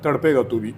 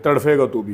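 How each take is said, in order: First: The first word has a plain p sound. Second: The first word has an f-like sound. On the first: This is the Urdu pronunciation. The speaker calls it right. "तड़पेगा तू भी उर्दू में" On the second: This copies the Indian pronunciation. The speaker calls it wrong. "Indian जो है हमेशा तड़फे बोलते हैं"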